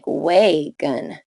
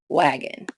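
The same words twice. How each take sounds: First: The first vowel is long. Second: The first vowel is short. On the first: The speaker calls it wrong. "Rule eight would make it sound like wagon" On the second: The speaker calls it right. "make the first vowel short"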